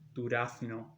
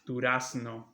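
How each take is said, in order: First: The z is pronounced like th. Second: The z is pronounced like an s. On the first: "if a Spaniard were to read this word, he would say durazno" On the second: "here we also pronounce this as s"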